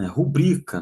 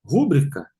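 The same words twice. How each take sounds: First: Rubrica stressed on the middle syllable BRI; correct stress. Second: Rúbrica stressed on the first syllable RÚ, asked as a question; wrong stress. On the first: Teacher corrects the class, rubrica stressed on BRI. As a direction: say rubrica as ru-BRI-ca, setting it right. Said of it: "Não tem acento, é paroxítona". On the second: Teacher tests students with the wrong stress, Rúbrica on RÚ. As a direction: say Rúbrica as RÚ-bri-ca, quizzing the class. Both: Shown as a demonstration.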